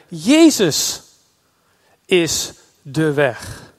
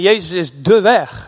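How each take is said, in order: First: The stress falls on the word Jezus. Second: The stress falls on the word weg. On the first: The way itself is found in him. "de klemtoon eens andersom te leggen" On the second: He is the path you must follow. "we lezen het vaak van"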